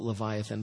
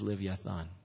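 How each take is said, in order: First: It is said as le-vi-a-than, four syllables. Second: It is said as liv-ya-tan, three syllables. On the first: This is the usual English form of the name. "We call it Leviathan" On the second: This is the original Hebrew form of the name. "the Hebrew word is Livyathan"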